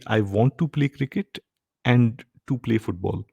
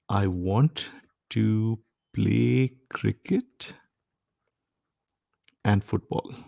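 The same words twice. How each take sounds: First: "to" repeated before play, pointed up as odd; the wrong version. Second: Slow, plain "I want to play cricket and football"; the right version. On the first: Teacher models the unidiomatic repeated "to". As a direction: stress the extra "to" in "and to play football". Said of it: "makes absolutely zero sense to say". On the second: Teacher reads the correct short sentence slowly. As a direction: lay out the sentence slowly without a second "to". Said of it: "let me give you another sentence". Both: Shown as a demonstration.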